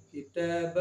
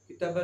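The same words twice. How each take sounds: First: Long held middle vowel in किताब; stretched vowel. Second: किताबा with the ता cut short; short unstretched vowel. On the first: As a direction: stretch the ता of किताब to two counts. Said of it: "खींच कर पढ़ेंगे". (किताब का ता खींच कर) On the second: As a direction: say किताबा quickly, no held vowel. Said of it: "किताबा नहीं पढ़ेंगे". (किताबा बिना खींचे, छोटे स्वर से) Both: Shown as a demonstration.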